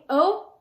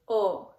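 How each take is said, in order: First: The vowel is said as in English. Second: The vowel is said as in Spanish. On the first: The speaker calls it wrong. "instead of saying O" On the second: The speaker calls it right. "you say O"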